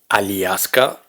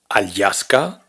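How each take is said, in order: First: A separate i vowel follows the l. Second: A separate y glide follows the l. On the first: "ni Aliaska" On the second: "No es Alyaska"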